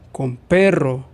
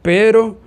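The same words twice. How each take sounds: First: "perro" with a rolled, trilled rr; minimal pair, trilled r. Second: "pero" high and loud, with a single tapped r; minimal pair, single r. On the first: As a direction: roll the rr in "perro". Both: Shown as a demonstration. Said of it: "Por ejemplo".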